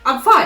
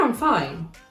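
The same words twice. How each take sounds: First: It is said in a tense, upset tone. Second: It is said in a relaxed, easy tone. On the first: The speaker is not actually fine. "it goes along with the tone and the pitch... you're not fine" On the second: The speaker really is fine. "usually you're fine"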